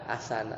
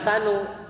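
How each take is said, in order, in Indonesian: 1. Kata ini berakhir dengan vokal 'a'. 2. Kata ini berakhir dengan vokal 'u'. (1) "bukan ahsana" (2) "Karena dia bacanya ahsanu"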